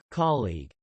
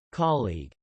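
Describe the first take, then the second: Both takes have the same delivery.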